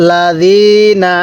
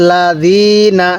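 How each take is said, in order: No difference in how they are said.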